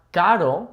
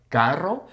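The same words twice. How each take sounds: First: "caro" with one light tongue tap; single tapped R. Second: "Carro" as one word with trilled R; rolled R. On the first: Warning learners off it, single-tap R in "caro". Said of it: "caro with the singular R". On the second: Contrasting two words for learners, trilled "Carro". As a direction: roll the R in "Carro". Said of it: "it's not caro". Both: Shown as a demonstration.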